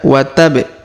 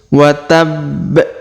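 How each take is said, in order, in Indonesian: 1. Huruf b diucapkan pendek tanpa ditahan. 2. Huruf b ditahan dan ditekan sebelum dilepas. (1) "Bukan bukan dibaca wa tab" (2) "maka kita tahan dan tekan"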